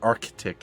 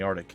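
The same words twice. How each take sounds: First: The word is pronounced in a careful, full way. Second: The word is pronounced in a casual, loose way.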